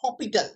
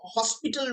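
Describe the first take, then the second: First: No s sound comes before the t. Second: An s sound comes before the t. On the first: The speaker calls it right. "Actually উচ্চারণটা হপিটাল" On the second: The speaker calls it wrong. "কোথাও কোথাও এল হসপিটাল রুলও বলা হয়"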